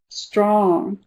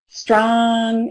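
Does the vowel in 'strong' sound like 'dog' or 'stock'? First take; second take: dog; stock. First: The vowel matches the vowel in 'dog'. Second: The vowel matches the vowel in 'stock'. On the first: "this is one that I pronounce as Auburn" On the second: "Some of them would say strong as olive stock"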